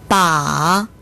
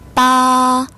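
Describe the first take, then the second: First: The pitch dips low, then rises. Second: The pitch stays high and level. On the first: It means a handle. "삼성" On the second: It means eight. "일성부터 사성까지"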